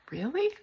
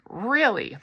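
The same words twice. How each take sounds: First: Really? asked high and soft with a rising end; doubtful question. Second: Really. said flat and sure with a falling end; firm reassurance. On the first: Melody doubts her teacher's praise, soft rising question. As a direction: let Really? lift up, hoping and unsure. Unsure question answered by an echo. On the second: Catherine reassures Melody, firm falling answer. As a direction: settle Really. down firmly, no doubt left. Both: Acted.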